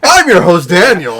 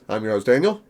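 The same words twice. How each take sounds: First: It is said in an upbeat tone. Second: It is said in a somber tone.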